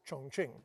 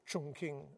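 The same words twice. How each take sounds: First: The name is said in its current form. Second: The name is said in its older form. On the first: This is the name the city has today. "which was Chongqing" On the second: This is what the city was called back then. "as it was called then"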